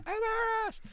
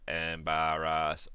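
First: It is said in a very high-pitched voice. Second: It is said in a flat, robotic voice. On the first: "a really high embarrass" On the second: "a robot version would be like embarrass"

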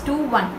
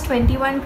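First: It is read as two separate digits. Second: It is read as one whole number. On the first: The speaker calls it right. "it is pronounced as 2-1" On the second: The speaker calls it wrong. "it is not pronounced as 21"

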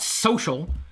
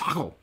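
First: The middle consonant is an sh sound. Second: The middle consonant is a k sound. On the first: The speaker calls it wrong. "You can't just call it social" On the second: The speaker calls it right. "I think it's sockle"

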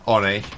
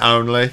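First: The word is said without the L sound. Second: The word is said with the L sound. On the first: "when I say Onnie" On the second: "I mean only"

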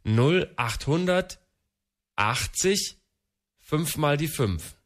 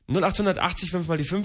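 First: It is said very slowly. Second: It is said at normal speed.

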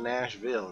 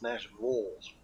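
First: The last syllable is said as a clear 'vill'. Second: The last syllable is said as a reduced 'vull'. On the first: "they don't say Ville" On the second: "V-U-L, Vols"

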